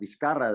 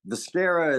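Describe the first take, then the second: First: The name is said with its original pronunciation. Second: The name is said with an American pronunciation. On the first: "the real one" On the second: "the Americanized pronunciation"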